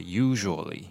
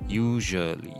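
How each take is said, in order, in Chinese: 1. z后面的元音会滑动，是双元音。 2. z后面的元音是单纯的单元音。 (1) "它有点是双母音哦" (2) "它不是单纯一个的音，所以不是usually"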